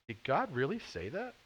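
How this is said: It is said in an Urkel impression.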